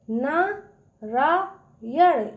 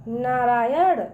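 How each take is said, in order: First: Narayan very slow, in three separate syllables; broken into three parts. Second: Said in the usual way. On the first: Shown as a demonstration. Teacher shows kids a word in three parts, slowly. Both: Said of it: "इसको तीन भागों में तोड़ा गया है".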